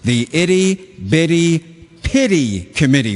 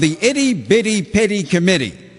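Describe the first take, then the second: First: The phrase is said slowly and clearly. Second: The phrase is said at a fast pace.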